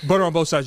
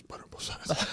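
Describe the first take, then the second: First: Said in the usual way. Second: Hushed, voiceless whisper; whispered prompt. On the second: Retold or imitated. Friend secretly prompting him while ordering, whispered. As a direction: hiss it discreetly as a sneaky prompt.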